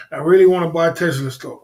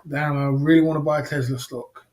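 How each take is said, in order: First: Repeated with a laugh and a louder push. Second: Said in the usual way. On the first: Real, not acted. Repeating his wish to buy Tesla stock, laughing.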